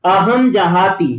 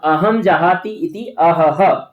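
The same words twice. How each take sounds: First: अहम जहाती drawn out syllable by syllable; slow clear reading. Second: अहम जहाती इति अहह drawn out syllable by syllable; slow clear reading. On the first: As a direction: spell out अहम जहाती for the class. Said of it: "उन्होंने भी यहाँ भी देख लिया". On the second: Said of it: "अब जब कोई पीड़ा होगी". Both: Shown as a demonstration.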